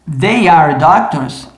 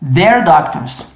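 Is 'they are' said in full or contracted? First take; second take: full; contracted. First: They and are are said as two full words. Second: They and are merge into one quick syllable. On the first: "Se eu falo they are doctors" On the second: "agora eu quero acelerar"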